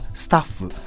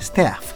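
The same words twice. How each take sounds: First: It is said as a Japanese katakana word. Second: It is said with a squashed English vowel. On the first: "日本語ではスタッフ。" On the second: "英語の発音を思い出していただくと、絵の形で青を言うというちょっとつぶれたやつですね。"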